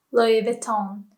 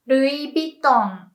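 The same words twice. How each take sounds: First: Said in the usual way. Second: "Louis Vuitton" slowly as "rui biton"; Japanese pronunciation. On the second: Shown as a demonstration. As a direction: say "Louis Vuitton" with tapped R and a B, "ru-i bi-ton". English then Japanese brand demo.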